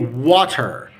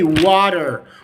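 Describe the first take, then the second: First: It is said with a clear T and final R. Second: It is said with a soft D and final R. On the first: "That's in the Egyptian accent or in uh, normal accent" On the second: "in the American accent, we can say water, water, slight D"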